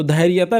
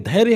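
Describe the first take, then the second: First: धैर्यता with an added "taa"; wrong form demonstrated. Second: धैर्य ending on "rya", without taa; correct form demonstrated. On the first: Teacher rejects the everyday word, wrong form demonstrated. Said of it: "धैर्यता नहीं होता". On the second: Teacher gives students the actual word, correct form demonstrated. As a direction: say धैर्य as dhair-ya. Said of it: "actual में धैर्य होता है". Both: Shown as a demonstration.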